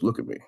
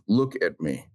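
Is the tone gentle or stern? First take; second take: gentle; stern. First: It is said in a gentle, plain tone. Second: It is said in a very stern tone.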